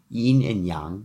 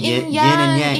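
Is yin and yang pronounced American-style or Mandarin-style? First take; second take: Mandarin; American. First: Yin and yang is said with Mandarin pronunciation. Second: Yin and yang is said with an American accent. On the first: The speaker calls it right. "but it should be yin and yang" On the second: The speaker calls it wrong. "That I say with my terrible American pronunciation"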